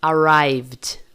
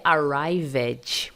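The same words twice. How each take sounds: First: ARRIVED in two syllables, "arraivd". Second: ARRIVED slowly as "arrai-ved"; wrong extra syllable. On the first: Teacher shows the correct past, ED as D. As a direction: buzz V straight into D in ARRIVED. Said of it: "som apenas de D". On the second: Teacher shows what not to say, extra syllable. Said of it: "Não é". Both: Shown as a demonstration.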